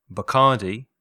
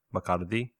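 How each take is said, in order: First: Bacardi said the English way, stressed on the middle syllable; English pronunciation. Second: Bacardi said the Spanish way, softer and lower; Spanish pronunciation. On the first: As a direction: model Bacardi clearly as an English word. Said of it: "Licores en inglés son spirits". (Bacardi pronunciado a la inglesa) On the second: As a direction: give Bacardi as a quiet Spanish gloss. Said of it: "o sea". (Bacardi pronunciado en español, más bajo) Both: Shown as a demonstration.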